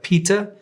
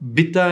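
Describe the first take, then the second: First: The word begins with a P sound. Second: The word begins with a B sound. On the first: The speaker calls it right. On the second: The speaker calls it wrong.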